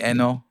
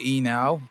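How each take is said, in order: First: The name is said the way people in Cameroon say it. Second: The name is said the way Americans say it. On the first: "back home they would be like Stanley Eno" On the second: "Americans would say Enow"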